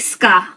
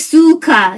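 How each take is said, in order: First: The u vowel after s is dropped. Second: The u vowel after s is fully voiced. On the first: The speaker calls it right. "you say ska" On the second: The speaker calls it wrong. "you don't say suka"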